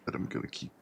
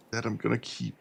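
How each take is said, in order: First: Whispered repeat of the line. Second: Said in the usual way. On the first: Shown as a demonstration. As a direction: breathe it out as a whisper.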